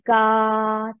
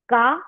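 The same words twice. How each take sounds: First: The vowel is held for three beats. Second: The vowel is held for two beats. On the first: "तीन मात्रा" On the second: "दीर्घ उच्चार त्याच्या double दोन मात्रा"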